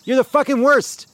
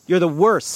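First: Loud, high yell on fucking worst; furious yell. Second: Said in the usual way. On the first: Real, not acted. [name] yelling at the senator, furious. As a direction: blast it at her. Peak of [name]'s rant.

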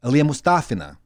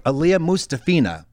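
First: Aliyah Mustafina as moos-TAH-fee-na; Russian stress. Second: Aliyah Mustafina as moos-tah-FEE-na; English-style stress. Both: Shown as a demonstration. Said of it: "it's so different".

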